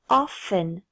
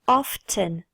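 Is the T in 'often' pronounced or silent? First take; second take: silent; pronounced. First: The word is said with a silent T. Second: The word is said with the T pronounced.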